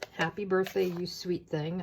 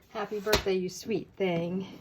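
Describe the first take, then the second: First: It is said in the speaker's plain accent. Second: It is said in a put-on southern accent.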